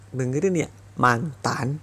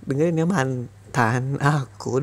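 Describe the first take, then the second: First: Said in the usual way. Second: Slow and deliberate. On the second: Acted. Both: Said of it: "Sekali lagi dengerin lagi".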